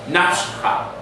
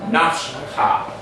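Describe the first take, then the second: No difference in how they are said.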